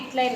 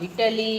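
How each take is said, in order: First: The word is squeezed into two syllables. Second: The word is said with three full syllables. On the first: The speaker calls it wrong. "It is not ఇట్లై" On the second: The speaker calls it right.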